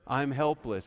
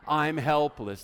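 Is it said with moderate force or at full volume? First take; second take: moderate force; full volume. First: It is said with moderate conviction. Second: It is said loudly, at full voice.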